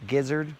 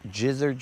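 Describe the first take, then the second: First: The word starts with a hard G sound. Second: The word starts with a J sound. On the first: The speaker calls it wrong. "Commonly mispronounced as" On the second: The speaker calls it right. "as in the word giraffe"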